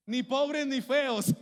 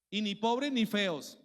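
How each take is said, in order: First: "Ni pobres ni feos" called out louder and higher, very slow, hard stress on "pobres"; loud slow emphasis. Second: "Y ni pobres ni feos" said slowly, "pobres" leaned on; slow punchline, stress on "pobres"; slow emphasis. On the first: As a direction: proclaim it to the crowd, each word weighted. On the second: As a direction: drag out "ni pobres ni feos" and fall at the end. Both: Shown as a demonstration.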